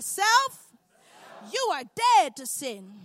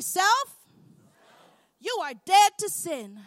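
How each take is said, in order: First: It is said with strong, believing conviction. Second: It is said in a plain, ordinary way. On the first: "mix a little bit of faith with it" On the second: "Say it with me"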